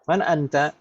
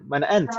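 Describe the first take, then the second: First: The final vowel of the last word is pronounced. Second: The final vowel of the last word is dropped. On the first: This is careful speech while still learning. "kita baca harokat itu harus lengkap" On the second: This is casual everyday conversation. "sering kali harokat terakhir itu memang tidak dibaca"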